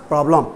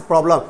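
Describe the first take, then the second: Both takes have the same delivery.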